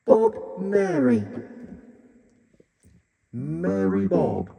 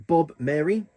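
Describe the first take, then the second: First: High, slow, flanged voice; sing-song Bob Mary through flanger; flanging effect. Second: Said in the usual way. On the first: Shown as a demonstration. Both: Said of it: "flanging vocals".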